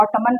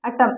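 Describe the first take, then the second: First: ऑटमन said wrongly with the n sounded; wrong pronunciation. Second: ऑटम said with the n silent. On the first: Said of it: "नहीं कहते". (ऑटमन गलत उच्चारण, n बोलकर) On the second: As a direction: say ऑटम ending on m, no n. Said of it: "इसको ऑटम कहते हैं". (ऑटम में n नहीं बोलना) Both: Shown as a demonstration.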